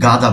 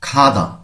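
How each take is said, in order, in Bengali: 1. প্রথম ব্যঞ্জনটি অল্পপ্রাণ। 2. প্রথম ব্যঞ্জনটি মহাপ্রাণ। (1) "আমরা অনেকেই গাদা বলি।" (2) "এখানে পড়তে হবে খাদা"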